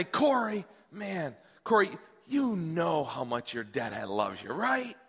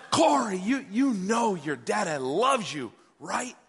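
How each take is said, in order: First: Slow, softening fatherly declaration; tender dad. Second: Insistent mock yell, slowing on the words; retold yelling. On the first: Retold or imitated. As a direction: tell your little boy gently, drawing it out. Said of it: "I'm gonna tell him". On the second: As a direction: press the point like an exasperated new dad. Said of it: "And I, and I'm yelling".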